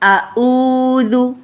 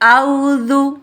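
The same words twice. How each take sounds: First: It opens with a glottal stop instead of ain. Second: It opens with a plain diphthong, no throat consonant. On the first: "आइन की जगह हमज़ा को पढ़ते हैं" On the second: "हमज़ा और आइन को ख़त्म करके वावलीन पढ़ती है"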